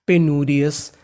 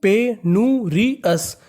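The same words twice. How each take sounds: First: Said in the usual way. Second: पेनूरियस stretched syllable by syllable, pe-nu-ri-yas; very slow, sounded out. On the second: Shown as a demonstration. Teacher answering his own quiz question, very slowly. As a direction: drag out पेनूरियस for the class to copy. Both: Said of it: "क्या बन गई?".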